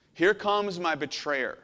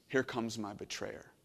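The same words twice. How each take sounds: First: Each word drawn out and weighed; slow emphatic. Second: Said low and soft, almost to yourself; hushed. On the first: Preacher repeating Jesus' line slowly for weight. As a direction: lean into it slowly, with gravity. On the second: Preacher first voicing Jesus' line quietly. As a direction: murmur it as a quiet realization. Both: Shown as a demonstration.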